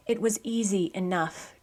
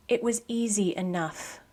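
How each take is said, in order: Both takes have the same delivery.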